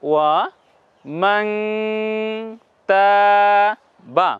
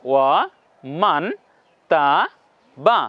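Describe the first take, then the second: First: The n is held and nasalized. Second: The n is a plain, short consonant. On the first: The speaker calls it right. "আওয়াজগুলোকে নাকের মধ্যে নিয়ে যেতে হবে।" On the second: The speaker calls it wrong. "ওয়া মান তা বা এমন উচ্চারণ হবে।"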